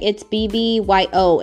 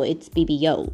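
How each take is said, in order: First: The ending is spelled out as two letters. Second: The ending is said as one single word. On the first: The speaker calls it wrong. "a lot of people always say" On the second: The speaker calls it right. "let's say it right"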